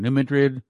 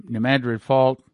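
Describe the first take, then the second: First: "Madrid" with a light first vowel, muh-DRID; "New Madrid" said muh-DRID; self-corrected "Madrid" as muh-DRID; corrected pronunciation. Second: "Madrid" said MAD-rid like the Spanish city; "New Madrid" with a flat a as in mad; mispronounced "Madrid" as MAD-rid; wrong pronunciation. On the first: Shown as a demonstration. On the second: Real, not acted. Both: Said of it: "I keep saying that wrong".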